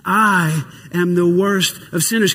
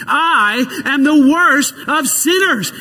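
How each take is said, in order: First: Said in the usual way. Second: Believing declaration. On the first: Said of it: "Can you say it with me again?". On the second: Shown as a demonstration. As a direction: proclaim it like you believe it. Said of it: "Can you say it again and believe it?".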